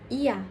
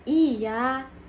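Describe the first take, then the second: First: The vowel has normal, short length. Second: The vowel is drawn out long. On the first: "vokal normal" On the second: "vokal panjang"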